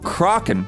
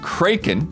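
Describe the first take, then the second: First: It is the pronunciation common in British English. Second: It is a rarer, less common pronunciation. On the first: "which is more common in British English" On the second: "the pronunciation that Don brought forth that we had never heard of"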